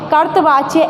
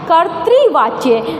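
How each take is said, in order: First: The 't' is followed by a plain 'a' sound. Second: The 't' is followed by an 'ri' sound. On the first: The speaker calls it wrong. "अक्सर हम इसको कर्तृवाच्य, कर्तवाच्य ऐसा बोल देते हैं" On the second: The speaker calls it right. "आपको ध्यान रखना है कर्तृवाच्य"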